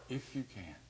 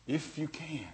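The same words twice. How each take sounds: First: Much softer, dropping away; soft echo. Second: Said in the usual way. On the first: Shown as a demonstration. Preacher echoes the father's doubt, much softer. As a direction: let it sink to a murmur.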